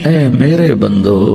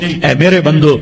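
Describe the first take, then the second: First: It is said in a warm, loving tone. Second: It is said in a plain, unloving tone. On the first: The speaker calls it right. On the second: The speaker calls it wrong.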